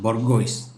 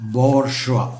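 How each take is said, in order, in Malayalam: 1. ഇത് എഴുതിയിരിക്കുന്നതുപോലെ വായിക്കുന്നു, 'goyce' എന്നു അവസാനിക്കുന്നു. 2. ഇത് 'bor' എന്നു തുടങ്ങി 'zhwa' എന്നു അവസാനിക്കുന്നു. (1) "ആരും ഇതിനെ ബൊർഗോയ്സ് എന്നേ വായിക്കുള്ളൂ" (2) "ഇതിൻ്റെ ശരിയായ ഉച്ചാരണം ബോർഷ്വ"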